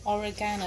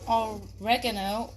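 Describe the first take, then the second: First: It is said the British way. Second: It is said the American way.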